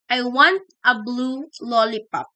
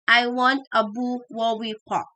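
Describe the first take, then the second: First: Every sound in the sentence is clearly articulated. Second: The l sounds become w and are dropped. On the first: This is the sentence the child intends. "want to say" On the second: This shows an articulation disorder. "if you have articulation disorder"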